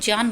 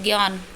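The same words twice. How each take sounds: First: The word begins with a j sound. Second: The word begins with a g sound. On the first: The speaker calls it right. "शुद्ध उच्चारण की हम बात करें तो ज्ञान बोला जाएगा" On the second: The speaker calls it wrong. "ग का उच्चारण करते हैं, सभी हम गलत ही बोलते हैं।"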